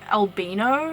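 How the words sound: It is said the New Zealand way. This is how it is said in the speaker's country. "in my country, we actually say albino"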